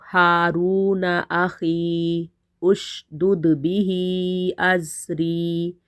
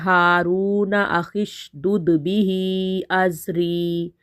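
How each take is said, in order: First: There is a break after akhi before ushdud. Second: Akhi runs straight into the next word without break.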